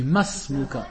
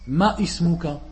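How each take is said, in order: First: The words run together with no glottal catch. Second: A glottal catch separates the words before 'ismuka'. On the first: The speaker calls it right. "On dit Masmuka. Le Alif, on ne doit pas le prononcer" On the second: The speaker calls it wrong. "les gens qui font l'erreur"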